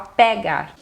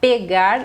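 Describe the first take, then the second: First: The E vowel is said open. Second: The E vowel is said closed. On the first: This is how people speak in the Northeast. "é um E mais aberto" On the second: This is how people speak in the speaker's region. "Aqui a gente iria falar"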